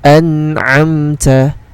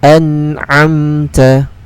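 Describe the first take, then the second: No difference in how they are said.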